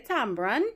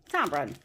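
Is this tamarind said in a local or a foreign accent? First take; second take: local; foreign. First: It is said in a Trinidadian accent. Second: It is said in a foreign accent. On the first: "just as how I say tamarind" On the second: "you would probably pronounce it tamarind"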